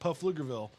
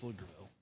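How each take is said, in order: First: The P at the start is pronounced. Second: The P at the start is silent. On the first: The speaker calls it wrong. "so it looks hilarious, like" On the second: The speaker calls it right. "but it's just"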